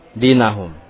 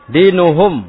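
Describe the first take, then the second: First: The vowel after 'din' is a. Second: The vowel after 'din' is u. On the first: The speaker calls it wrong. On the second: The speaker calls it right.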